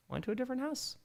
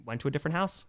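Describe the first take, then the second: First: Lifted high, softer, playful; high soft repeat. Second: Said in the usual way. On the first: Pretend.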